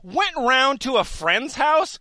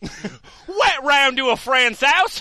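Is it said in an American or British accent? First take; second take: American; British. First: It is said in his ordinary accent. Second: It is said in a put-on British accent.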